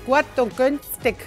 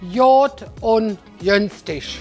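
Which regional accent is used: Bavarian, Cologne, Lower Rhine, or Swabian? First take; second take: Bavarian; Cologne. First: Spoken in a Bavarian German accent. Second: Spoken in a Cologne accent, with G sounding as J. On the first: "Das sagt man zum Beispiel in Bayern" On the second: "Der Kölner oder der Rheinländer, der würde alles mit J sagen"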